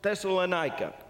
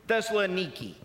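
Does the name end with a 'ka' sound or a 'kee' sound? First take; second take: ka; kee. First: The name ends with a 'ka' sound. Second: The name ends with a 'kee' sound. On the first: This is the traditional form of the name. "a place called Thessalonica" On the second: This is how people in Greece say it today. "the way they pronounce it today"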